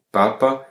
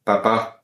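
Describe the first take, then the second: First: "papa" stressed on the first A; first syllable strong in "papa". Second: "papa" stressed on the final A; stress on second syllable. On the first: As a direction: say "papa" as PA-pa, last A light. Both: Shown as a demonstration. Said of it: "c'est la même chose pour papa".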